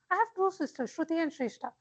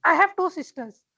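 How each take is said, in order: First: Much softer, hushed telling; character voice. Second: Said in the usual way. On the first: Shown as a demonstration. Teacher says it again, softly, to show the better take. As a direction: drop to a soft confiding tone. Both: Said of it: "Which was more appealing?".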